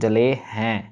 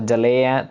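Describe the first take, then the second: First: The last word has an 'h' and nasal vowel. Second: The last word sounds like a bare 'e' vowel. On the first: The speaker calls it right. "हो की sound आएगी" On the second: The speaker calls it wrong. "ऐसे आवाज़ नहीं कहनी।"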